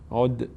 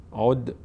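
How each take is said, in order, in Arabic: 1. الدال الأخيرة فيها قلقلة خفيفة. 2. الدال الأخيرة فيها قلقلة خفيفة.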